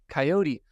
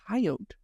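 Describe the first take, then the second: First: It uses the non-Midwestern pronunciation of the word. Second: It uses the Midwestern regional pronunciation of the word. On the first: This is how the speaker first thought it was said. The speaker calls it wrong. "I always thought, uh, you know, it was pronounced coyote" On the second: This is how locals in the region say it. The speaker calls it right. "here in the Midwest, uh, they pronounce it coyote"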